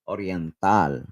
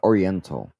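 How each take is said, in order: First: The word has the local Philippine pronunciation. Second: The word has an anglicized English pronunciation. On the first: The speaker calls it right. "You pronounce it as Oriental" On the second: The speaker calls it wrong. "you don't pronounce it as Oriental"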